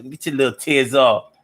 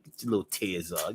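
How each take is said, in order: First: Said in the usual way. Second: Dropped way down, much softer; a soft murmured aside; quiet. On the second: Shown as a demonstration. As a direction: say it under your breath. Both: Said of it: "repeated line".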